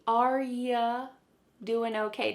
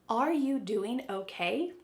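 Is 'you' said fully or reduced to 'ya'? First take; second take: reduced; fully. First: The word you is reduced to ya. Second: The word you is said fully and clearly. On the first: The speaker calls it right. "sometimes you becomes ya" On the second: The speaker calls it wrong. "But do they say, ... No. This is often reduced"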